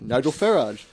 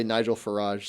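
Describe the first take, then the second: First: Farage said the British way, FAIR-ahj, with a hard j at the end; British pronunciation. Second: Farage said the American way, fuh-RAHZH, stress on the last syllable, soft zh ending; American pronunciation. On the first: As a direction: say Nigel Farage like a Brit, first syllable of Farage leading. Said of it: "he says it like". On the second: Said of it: "every time I hear an American say it". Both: Shown as a demonstration.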